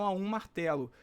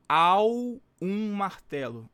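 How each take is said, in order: First: Said in the usual way. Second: AO drawn out long and loud, then "um martelo"; very slow, with a heavy, lengthened AO; stress on AO. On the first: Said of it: "Vejam aqui que não". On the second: Shown as a demonstration. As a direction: stretch out the word AO slowly and forcefully. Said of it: "não seria".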